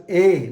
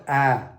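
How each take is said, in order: First: A as a closed "ay", louder; acute-accent E. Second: A as an open "aa", lower; wrong open sound. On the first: Teacher explains the acute accent, A as closed ay. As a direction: say A as ay, firmly. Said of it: "it is pronounced as A". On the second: Teacher shows what to avoid, open A lower in pitch. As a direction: say A open, as in cat. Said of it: "not A". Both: Shown as a demonstration.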